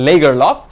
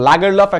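First: The first vowel is a front 'eh' sound. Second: The first vowel is an open 'ah' sound. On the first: "একটা লেগারলফ" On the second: "এটার দুটো উচ্চারণ আছে একটা হচ্ছে লাগেরলফ"

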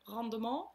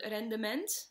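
First: The word is said with a posh French-like pronunciation. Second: The word is said with plain Dutch pronunciation.

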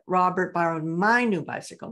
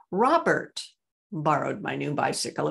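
First: The word 'my' is stressed. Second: The word 'Robert' is stressed. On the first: It was my bicycle and not yours. "not yours" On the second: It was Robert and not someone else. "It was Robert, not Raymond"

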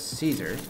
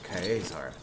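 First: Caesar is said the usual English way. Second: Caesar is said the Latin way. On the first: "I know that you would pronounce it as Caesar" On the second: "it's pronounced as Caesar in Latin"

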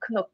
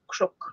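First: The consonant after k sounds like n. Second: The consonant after k sounds like r. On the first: "I would say knuck" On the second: "in Ulster and Connacht, it'll be crook, so an R sound there"

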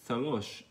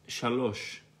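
First: The word begins with a lisped th sound. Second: The word begins with a clear sh sound. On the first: "Some people say thalosh" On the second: "Like saying shalosh"

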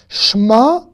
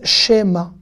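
First: The sh runs straight into the m. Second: A short vowel is heard between sh and m. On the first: The speaker calls it right. "c'est un E muet donc on dit Shma" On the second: The speaker calls it wrong. "Il y en a qui disent Shema"

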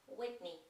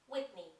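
The two takes are said the same way.

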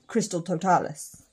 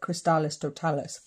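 First: The first word has two syllables. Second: The first word has three syllables. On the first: The speaker calls it right. "It is just Crystal Totalis" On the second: The speaker calls it wrong. "I always call it Crystallis Totalis, but it's not"

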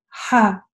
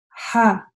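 No difference in how they are said.

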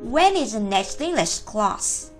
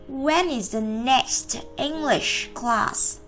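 First: The sentence is said quickly, words linked together. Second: The sentence is said slowly. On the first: "Nhanh nhé" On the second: "Đó là chúng ta đọc chậm"

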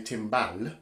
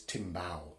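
First: The word is pronounced with English sounds. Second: The word is pronounced with Brazilian Portuguese sounds. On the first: "they don't say timbal" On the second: "in Brazil, when they speak Brazilian Portuguese, ... They'd say it's timbal"

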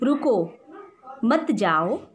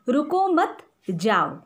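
First: The pause comes after the first word. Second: The pause comes after the second word.

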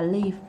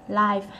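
First: Pronounced the way 'live' sounds in 'where do you live'. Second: Pronounced the way 'live' sounds in 'live show'. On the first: It means to dwell somewhere. The speaker calls it wrong. "Chứ không đọc là live" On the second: It means performed in person, not recorded. The speaker calls it right. "Thì chữ này đọc là live. Live ha"

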